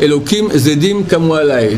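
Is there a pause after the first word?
no. The words run on without a pause. Evil gods rise against me. The speaker calls it wrong.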